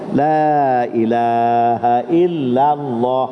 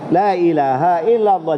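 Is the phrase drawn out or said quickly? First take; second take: drawn out; quick. First: The phrase is said slowly with long vowels. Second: The phrase is said quickly and short. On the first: The speaker calls it right. "disunatkan memanjang" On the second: The speaker calls it wrong. "jangan cepat jangan kata la ilaha illallah, jangan gitu"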